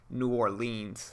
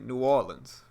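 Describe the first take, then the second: First: It has an outsider's pronunciation. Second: It has the city locals' pronunciation. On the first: The speaker calls it wrong. "it's most definitely not New Orleans. That's not how you say it" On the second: The speaker calls it right. "that's how people from New Orleans typically say it"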